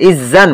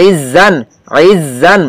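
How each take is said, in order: First: Said in the usual way. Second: "ইজ" with a dense, throaty ayn onset; deepened ayn. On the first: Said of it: "যদি হামজা হইতো তাহলে তো normal". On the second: Shown as a demonstration. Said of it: "একটু গাঢ় করে". ("ইজ"-এর আইন হলক থেকে গাঢ় করে)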